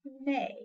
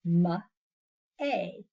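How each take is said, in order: First: Said in the usual way. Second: "ma-a" split slowly into two sounds; segmented sounds. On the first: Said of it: "What about the word". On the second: Shown as a demonstration. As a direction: break "ma-a" into consonant, pause, vowel. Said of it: "into two different sounds".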